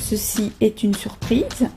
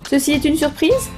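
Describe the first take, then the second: First: It is said as a plain statement. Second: It is said as a rising question.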